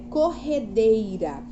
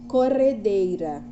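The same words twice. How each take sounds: First: The middle R is a strong sound. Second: The middle R is a weak, light sound. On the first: The speaker calls it right. "Então é corredeira, é como o rio corre" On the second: The speaker calls it wrong. "Se não tivesse dois R's, a gente chamaria de corredeira. Corredeira, aí não tá correto"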